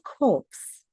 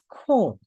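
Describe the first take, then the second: First: The word ends with a pronounced 'ps' sound. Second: The word ends without any 'ps' sound. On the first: The speaker calls it wrong. "But it's not corpse" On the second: The speaker calls it right. "it is corps"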